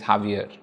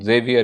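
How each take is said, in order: First: The name starts with a breathy H sound. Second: The name starts with an English J sound. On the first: "in France जेवियर is हावियर" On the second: "British will still call it जेवियर"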